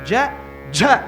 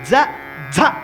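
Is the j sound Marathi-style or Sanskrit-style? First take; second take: Sanskrit-style; Marathi-style. First: The j sound is said the Sanskrit way. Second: The j sound is said the Marathi way. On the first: "ஜ ஜ அப்படின்னு சம்ஸ்கிருதம்" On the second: "ஜ ஜ அப்படின்னு மராட்டி"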